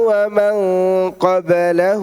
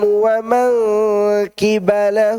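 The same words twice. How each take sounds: First: The word is said qablahu, with an a vowel. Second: The word is said qibalahu, with an i vowel. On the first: Those who came before him. "Itu bacaan yang biasa kita baca" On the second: Those who were with him. "Bacaan yang kedua"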